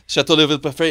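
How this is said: The name is said with an American accent. "Said it with my fake American accent"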